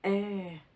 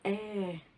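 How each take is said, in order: The two takes are said the same way.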